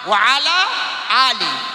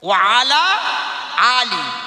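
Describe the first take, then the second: Both takes have the same delivery.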